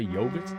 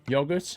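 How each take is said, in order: First: It is said in an American accent. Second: It is said in a non-American accent.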